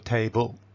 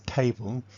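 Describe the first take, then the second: First: The stress is on the second syllable. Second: The stress is on the first syllable. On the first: The speaker calls it wrong. "it's never table" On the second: The speaker calls it right. "always stress on the first syllable and unstressed second syllable"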